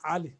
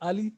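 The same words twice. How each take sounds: First: It begins with a deep throat sound. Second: It begins with a plain, familiar vowel. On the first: The speaker calls it right. "make sure you pronounce A like Ali" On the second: The speaker calls it wrong. "It's not Ali"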